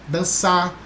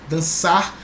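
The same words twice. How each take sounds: Both takes have the same delivery.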